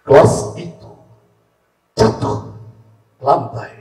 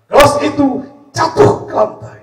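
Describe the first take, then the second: First: It is said at normal speed. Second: It is said fast.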